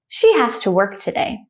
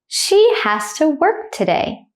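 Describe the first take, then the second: First: The sentence is said fast and naturally. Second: The sentence is said slowly and carefully. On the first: "at a native speaker speed second" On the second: "I will say it slowly first"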